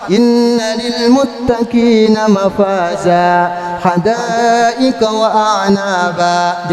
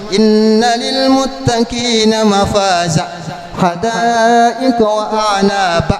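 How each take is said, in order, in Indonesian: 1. Vokal terakhir dibaca panjang, dua ketukan. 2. Vokal terakhir dibaca pendek, dengan cepat. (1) "Jadi ada madnya" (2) "Nggak ada mad, berarti salah"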